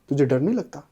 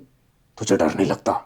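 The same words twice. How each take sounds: First: It is said in an ordinary speaking voice. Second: It is said in a strange, eerie put-on voice. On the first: "अब तो मैं तो normal बोल रहा हूँ ना" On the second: "उसकी आवाज एकदम, ... ऐसी थी"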